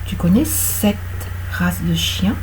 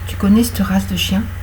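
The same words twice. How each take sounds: First: The E in cette is sounded. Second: The E in cette is dropped.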